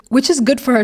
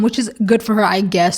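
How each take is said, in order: First: Said in the usual way. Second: Backhanded. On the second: Shown as a demonstration. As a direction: drop the pitch on I guess, make it sound backhanded. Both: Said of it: "that sounded so backhanded".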